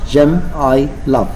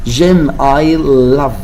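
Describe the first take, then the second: No difference in how they are said.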